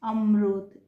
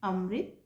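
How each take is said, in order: First: The r is followed by a u-like vowel. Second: The r is followed by an i-like vowel. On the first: The speaker calls it wrong. "उ की मात्रा से थोड़ी मिलती जुलती" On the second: The speaker calls it right. "Hindi में इसका उच्चारण"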